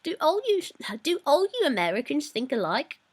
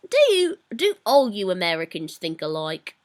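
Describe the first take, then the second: First: Higher-pitched British accent; more British accent. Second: British attempt slipping into Australian; Australian-sounding accent. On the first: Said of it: "There we go, that's more British". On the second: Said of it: "That sounds kind of Australian almost". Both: Shown as a demonstration.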